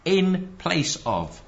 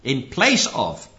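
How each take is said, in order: First: "in place of" very slow, drawn out; stress on in. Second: "place" slow and heavy; "In place of" said slowly, leaning on "place"; stress on place. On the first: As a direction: stretch "in place of" word by word. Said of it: "Not a representative of". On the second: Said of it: "That's what the word vicar means". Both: Shown as a demonstration.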